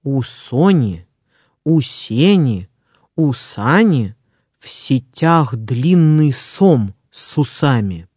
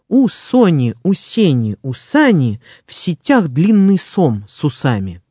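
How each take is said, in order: First: The phrase is spoken slowly. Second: The phrase is spoken quickly. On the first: "Сначала я прочитаю скороговорку медленно" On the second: "Быстро"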